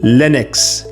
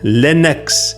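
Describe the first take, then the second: First: The first vowel is a short i, as in pin. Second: The first vowel is a short i, as in pin.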